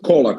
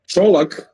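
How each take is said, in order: First: The name starts with a k sound. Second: The name starts with a ch sound. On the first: The speaker calls it wrong. "It's not Kolak" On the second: The speaker calls it right. "I should wrote like T C H Olak"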